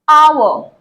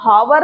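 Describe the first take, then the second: First: The word begins directly with a vowel sound. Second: The word begins with an h sound. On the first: The speaker calls it right. "ओ से" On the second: The speaker calls it wrong. "इसको हम हावर नहीं बोलते हैं"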